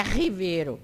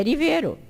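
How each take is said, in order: First: RIVEIRO with a breathy H-like first R; strong R. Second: RIVEIRO with a light tapped first R; weak R. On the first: Teacher shows the mistake, H sound starting RIVEIRO. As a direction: open RIVEIRO on H, hi-VEI-ro. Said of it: "não é riveiro". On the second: Teacher corrects the mistake, tapped R starting RIVEIRO. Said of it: "É sempre fraco". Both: Shown as a demonstration.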